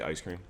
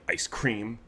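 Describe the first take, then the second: First: The two words run together without a pause. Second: There is a pause between the two words. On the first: The speaker calls it right. "They don't just say ice cream" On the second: The speaker calls it wrong. "they'll like put a pause in between ... or they'll say it like that"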